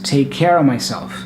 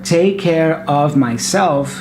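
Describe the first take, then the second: First: The word of is reduced to uh. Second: The word of is said in full.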